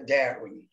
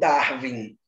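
First: The name is pronounced in an English way. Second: The name is pronounced in a German-like way. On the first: The speaker calls it right. "ele era inglês, a pronúncia correta é Darwin" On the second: The speaker calls it wrong. "mais conhecido como Darwin. Mas como ele não era alemão"

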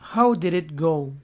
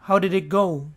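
First: The phrase is said slowly, each word separate. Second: The phrase is said quickly, words run together. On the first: "lo pueden pronunciar lento" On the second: "La gente por lo general lo dice más rápido"

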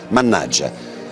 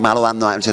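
First: It is said as one fully contracted word. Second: It is said as three separate words. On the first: The speaker calls it right. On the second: The speaker calls it wrong.

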